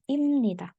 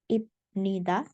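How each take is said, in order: First: The consonant before 'nida' is an M sound. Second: The consonant before 'nida' is a B sound. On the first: The speaker calls it right. "tapi imnida" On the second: The speaker calls it wrong. "Jadi bukan ibnida"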